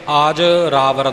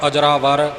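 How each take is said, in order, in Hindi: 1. यह शब्द दो अलग भागों में बँटा हुआ बोला जाता है। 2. यह शब्द एक इकाई की तरह जुड़ा हुआ बोला जाता है। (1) "ਆਜ ਰਾਵਰ ਪਾਠ ਨਹੀਂ ਕਰਨਾ" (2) "ਜੋੜ ਕੇ ਅਜਰਾਵਰ"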